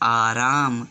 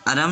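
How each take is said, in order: First: The vowels are drawn out long. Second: The vowels are cut short. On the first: The speaker calls it right. "ध्वनि लंबी खिंचेगी" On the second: The speaker calls it wrong. "आराम नहीं बोलेंगे"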